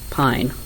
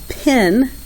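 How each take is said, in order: First: The vowel is a long i sound. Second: The vowel is a short i sound. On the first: The speaker calls it right. "the E tells the I to say its name" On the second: The speaker calls it wrong. "They were getting the I sound for an I"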